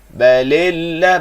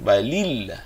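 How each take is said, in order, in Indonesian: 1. Vokal setelah 'l' pertama terdengar seperti 'e'. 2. Vokal setelah 'l' pertama adalah 'i' yang jelas.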